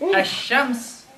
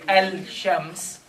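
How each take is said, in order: First: The L is silent; the sh sound is doubled. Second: The L is pronounced before the sh sound. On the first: "where is the lam? I am not pronouncing it at all" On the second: "it's the time that is going to be spent on the lam"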